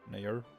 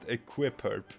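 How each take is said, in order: First: The X sound in the name is silent. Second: The X sound in the name is pronounced. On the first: The speaker calls it wrong. "They think the X is silent" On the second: The speaker calls it right. "It's pronounced"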